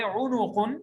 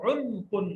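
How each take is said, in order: First: उनुकुन with an u after the n; उनुकुन, नून पर पेश; pesh on noon. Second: उनकुन with no vowel after the n; उनकुन, नून साकिन; jazm on noon. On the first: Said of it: "नून को पेश भी है". (उनुकुन में नून पर पेश लगाकर बोलो) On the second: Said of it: "और जज़म भी है". (उनकुन में नून पर जज़्म, बिना स्वर के बोलो) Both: Shown as a demonstration.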